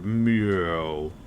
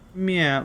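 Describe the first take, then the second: First: A somewhat lower-pitched meow. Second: A pitiful, higher-pitched meow.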